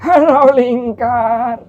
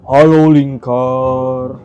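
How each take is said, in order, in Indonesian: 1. Suara karakter kakek-kakek. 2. Suara karakter jin yang bulat dan penuh. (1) "suara kakek-kakek" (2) "suara jin bulat gitu"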